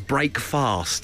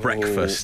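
First: It is said as two separate full words. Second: It is said as one reduced word. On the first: The speaker calls it wrong. "My mother-in-law says break fast" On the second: The speaker calls it right. "instead of breakfast"

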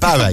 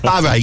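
First: The name is said in an English accent. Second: The name is said in an Irish accent.

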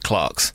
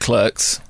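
First: The vowel sounds like the one in 'car'. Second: The vowel sounds like the one in 'her'. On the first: This is how a British speaker says it. "as a Brit, I would pronounce it Clarks" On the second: This is the film-maker's own pronunciation. "he pronounces it Clerks"

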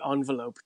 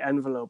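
First: The first syllable sounds like 'on'. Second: The first syllable sounds like 'en'. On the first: This is the older form still common in England. "a lot of them will say envelope to this day. And they will even sometimes spell it with an O" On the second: This is the usual form in Ireland now. "most people in Ireland, at least, say envelope nowadays"

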